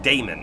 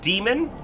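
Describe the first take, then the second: First: The first syllable sounds like 'day'. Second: The first syllable sounds like 'dee'. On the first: "or you can pronounce it Damon" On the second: "You can pronounce it demon"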